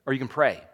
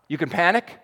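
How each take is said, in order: First: "pray" falls softly and resolves; stress on pray. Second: "panic" ends rising, left hanging; stress on panic. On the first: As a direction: pray settles low and falls. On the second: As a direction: panic lifted with a questioning rise. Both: Shown as a demonstration. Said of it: "panic versus pray contrast".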